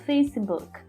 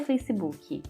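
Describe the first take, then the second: First: It ends in a light k with no added vowel. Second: It ends in a k followed by an added i vowel. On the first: The speaker calls it right. "É um K bem delicado" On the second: The speaker calls it wrong. "Não é Facebook"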